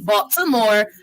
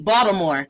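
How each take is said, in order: First: The middle consonant is a crisp T. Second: The middle consonant sounds like a D, Baltimore-style.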